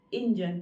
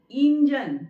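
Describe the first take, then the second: First: इंजन with a short first i; correct pronunciation. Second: इंजन with a loud, drawn-out "een"; long first vowel. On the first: Teacher shows correct version, short-vowel इंजन. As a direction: keep the opening of इंजन brief and lower. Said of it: "तो शुद्ध ये है". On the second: Teacher shows wrong version, long-vowel इंजन. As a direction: stretch the opening vowel of इंजन. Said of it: "तो ये हो गया". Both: Shown as a demonstration.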